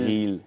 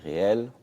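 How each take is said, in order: First: It is said the English way, with an 'ee' vowel. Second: It is said the French way, with an 'é' vowel. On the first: The speaker calls it right. "On dit bien les reels" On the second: The speaker calls it wrong. "et pas les réels"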